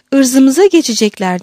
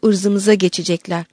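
First: Loud, higher panicked exclamation; explosive outburst. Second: Said in the usual way. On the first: A narrator's reading. Margarita echoing the abbess's fear, explosive cry. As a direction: burst out like a volley of gunfire. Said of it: "yaylım ateşi gibi patlayarak".

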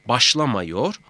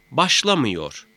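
First: "Başlamıyor" said as başlamayor, rising; unnarrowed A vowel. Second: "başlamıyor" with ı before -yor, falling; narrowed vowel. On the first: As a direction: keep an a before -yor in "Başlamıyor". ("Başlamıyor", ı yerine a ile) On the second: ("başlamıyor", daralmış ı ile) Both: Shown as a demonstration. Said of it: "mameyi de etkiler".

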